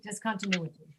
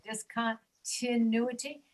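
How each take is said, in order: First: "Discontinuity" run together as dis-con-tuh-NU-i-ty; whole word "Discontinuity", weak "tuh" in the middle; reduced to schwa. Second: Slow "discontinuity", with "tin" set apart; "discontinuity" as dis-con... TIN-uity, drawn out; pointing out second I. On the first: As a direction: say "Discontinuity" smoothly with the second I as uh. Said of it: "the sound is reduced to a schwa". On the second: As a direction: pause before the second I syllable in "discontinuity". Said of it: "the second I". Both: Shown as a demonstration.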